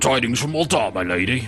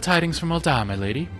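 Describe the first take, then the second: First: It is said in a very deep, gruff voice. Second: It is said in a lighter, higher voice. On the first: "the deepest, like, gangster British voice ever" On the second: "I'm gonna go with her actual voice"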